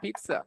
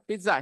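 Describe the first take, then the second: First: It is said with an English pronunciation. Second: It is said with a Hindi pronunciation. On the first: "When I say English, I speak English" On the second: "और हिंदी में पिज्जा"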